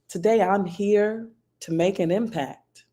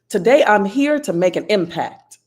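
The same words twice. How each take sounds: First: It is said with warmth and empathy. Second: It is said with intense focus. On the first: "say that phrase with warmth" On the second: "say it with focus"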